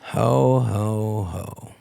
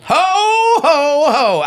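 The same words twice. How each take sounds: First: It is a sultry, sexy Santa laugh. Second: It is a plain jolly Santa laugh.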